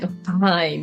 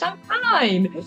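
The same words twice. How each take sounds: First: It is said at a normal pitch. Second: It is said in a higher pitch.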